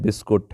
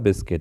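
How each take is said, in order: First: The second vowel is a 'u' sound. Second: The second vowel is an 'i' sound. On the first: The speaker calls it wrong. "काफी लोग इसको बोलते हैं बिस्कुट" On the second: The speaker calls it right. "इसका सही उच्चारण होगा बिस्किट"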